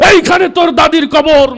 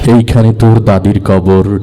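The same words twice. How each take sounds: First: It is recited loudly like a fiery speech. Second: It is recited smoothly and expressively. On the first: The speaker calls it wrong. "রাজনীতির মঞ্চে গরম বক্তব্য দিয়ে অভ্যাস" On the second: The speaker calls it right. "সে অনেক সুন্দর করে আবৃত্তি করলো"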